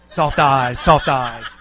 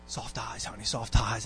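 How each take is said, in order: First: Loud echo with a laugh in it; mock the reminder back, punching both words out loudly; loud mimicking. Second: Low, hushed imitation of a wife's coaxing; softly coax, as a wife nudging her husband; gentle reminder. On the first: Husband parroting his wife's reminder back, loudly mimicking. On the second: Wife reminding her husband about his facial expression, gently coaxing.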